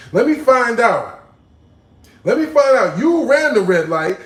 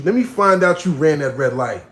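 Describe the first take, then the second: First: Higher and louder mocking call-out; loud teasing. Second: Said in the usual way. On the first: Teasing buildup, louder take.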